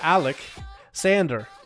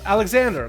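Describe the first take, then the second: First: The two parts are said separately and slowly. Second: The two parts are run together quickly. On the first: "it's also Alec Sander. Like sand" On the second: "like if you say it fast"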